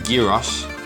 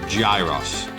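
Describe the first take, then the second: First: The word is said the Greek way. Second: The word is said the English way. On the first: The speaker calls it right. "That's gyros" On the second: The speaker calls it wrong. "not gyros"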